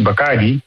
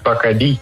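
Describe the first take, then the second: First: The stress falls before the final syllable. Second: The stress falls on the final syllable. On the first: The speaker calls it wrong. "wij spreken het gewoon Nederlands uit" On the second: The speaker calls it right. "er staat inderdaad een accentje op de i"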